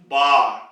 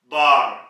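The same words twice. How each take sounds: No difference in how they are said.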